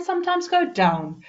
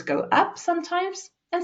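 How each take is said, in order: First: Voice going down. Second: Voice going up. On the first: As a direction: pitch drops at the end. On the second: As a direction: pitch leaps high. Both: Shown as a demonstration. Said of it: "with intonation to make your voice".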